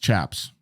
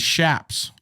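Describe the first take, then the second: First: The word begins with a 'ch' sound. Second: The word begins with an 'sh' sound. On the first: The speaker calls it wrong. "it's not pronounced chaps" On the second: The speaker calls it right. "The correct pronunciation is shaps"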